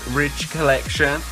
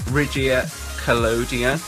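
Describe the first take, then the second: First: The second word is said like 'collection'. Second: The second word is said like 'collodion'. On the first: The speaker calls it wrong. "I called this Ridge Collection" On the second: The speaker calls it right. "that's how I think you pronounce it"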